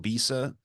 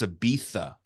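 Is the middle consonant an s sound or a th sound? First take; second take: s; th. First: The middle consonant is a plain s sound. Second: The middle consonant is a th sound. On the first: "how we would call Ibiza" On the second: "they say like a T H"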